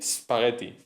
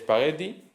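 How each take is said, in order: First: The word begins directly with an 's' sound. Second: The word begins with an added 'e' vowel. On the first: This is the original Italian form. "en Italia se dirá spaghetti" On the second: This is the form adapted into Spanish. "hemos añadido una E"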